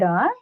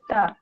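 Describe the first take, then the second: First: The consonant is a voiced d sound. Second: The consonant is a voiceless t sound. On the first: The speaker calls it wrong. "not da" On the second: The speaker calls it right.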